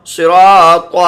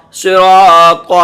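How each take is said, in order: First: Said in the usual way. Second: صراط drawn out very slowly and loud; slow teacher's blend of صراط; slow blended reading. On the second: Shown as a demonstration. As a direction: stretch صراط syllable by syllable. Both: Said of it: "پہلے آپ دو دو حرف لیں گے".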